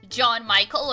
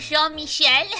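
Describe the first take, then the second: First: The name is said with English pronunciation. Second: The name is said with French pronunciation.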